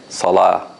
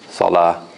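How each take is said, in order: No difference in how they are said.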